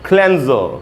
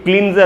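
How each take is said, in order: First: The first vowel is a short 'e' sound. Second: The first vowel is a long 'ee' sound. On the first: The speaker calls it right. "क्लेंजर बोलना चाहिए" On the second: The speaker calls it wrong. "क्लींजर नहीं"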